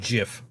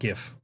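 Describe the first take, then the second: First: The word begins with a soft J sound. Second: The word begins with a hard G sound. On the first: The speaker calls it right. "pronounced with a J, with a J sound" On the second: The speaker calls it wrong. "not GIF"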